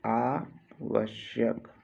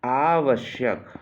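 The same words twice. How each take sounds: First: "आवश्यक" slow, pause after आ; split slowly for dictation. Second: Said in the usual way. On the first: Shown as a demonstration. Teacher dictating a spelling, आवश्यक slowly in two parts. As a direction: break "आवश्यक" into आ, pause, वश्यक.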